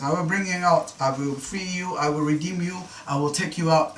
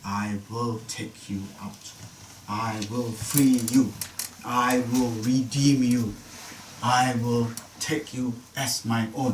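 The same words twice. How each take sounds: First: Raised, running list of repeated promises; same tune on each promise, moving straight on; repetitive listing. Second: Very slow, weighty promises; slow solemn declaration, pausing after each one; emphatic and deliberate. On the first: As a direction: reel off the promises in a lifted voice. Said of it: "He's saying the same thing many times". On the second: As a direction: spell out each promise word by word. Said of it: "This is important, get this right". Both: Acted.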